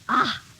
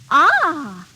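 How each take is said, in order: First: It sounds disgusted. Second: It sounds pleased.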